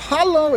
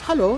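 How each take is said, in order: First: It is said sharply and with annoyance. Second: It is said softly and gently.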